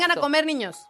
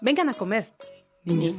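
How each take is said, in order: First: It is said without a pause before niños. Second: It is said with a pause before niños.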